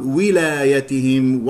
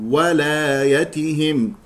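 First: "ولايتهم" said slowly as wilaayatihim; kasra on waw. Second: "وولايتهم" said wa, then slowly walaayatihim; fatha on waw. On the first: Teacher showing the mistake, slow "ولايتهم" starting wi. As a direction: open "ولايتهم" with wi. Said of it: "فيقرأ ولايتهم بكسر الواو". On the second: Teacher correcting the mistake, slow "وولايتهم" starting wa. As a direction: open "وولايتهم" with a clear wa. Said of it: "والصواب فتح الواو". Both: Shown as a demonstration.

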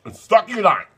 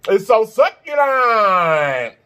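First: Said in the usual way. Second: It's so succulent, drawn out very slowly; slow savouring drawl. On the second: Real, not acted. Savouring the ham.

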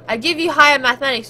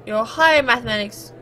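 First: Higher pushed out louder in exasperation; insisting on higher mathematics, a step louder; stress on higher. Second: Said in the usual way. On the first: Acted. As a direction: lean hard on the word higher, louder. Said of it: "you give me puns".

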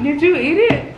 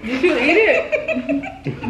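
First: Said in the usual way. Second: Slow, laughing through the question. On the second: Real, not acted. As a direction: ask it slowly while cracking up.

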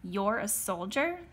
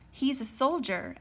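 First: Slow question, rising at the end. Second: Higher-pitched eager outburst; blurting. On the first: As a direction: query it doubtfully, taking your time. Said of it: "the sergeant asked me". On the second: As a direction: blurt it out to save your friend. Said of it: "Eben blurted". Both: A narrator's reading.

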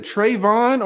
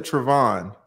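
First: "Trayvon" with a long AY in the first syllable. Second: "Trevon" with a reduced first syllable, truh-VON; short first syllable. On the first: Host checking a guest's name, "Trayvon" said with TRAY first. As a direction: say "Trayvon" opening like the word tray. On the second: Host offering the other name option, "Trevon" said truh-VON. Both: Shown as a demonstration. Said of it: "am I saying your name right".

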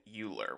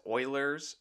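First: Euler said as "YOO-ler"; common mispronunciation. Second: Euler's said as "OY-lerz"; correct pronunciation. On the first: Teacher shows how many people pronounce it, Euler said "YOO-ler". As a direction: start Euler with a "you" sound. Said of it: "how many people do pronounce it". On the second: Teacher gives viewers his site's name, Euler's said "OY-lerz". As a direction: start Euler's with an "oy", like oiler. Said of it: "it's pronounced as". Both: Shown as a demonstration.

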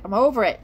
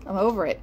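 First: Louder repeat. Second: Said in the usual way. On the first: Real, not acted.

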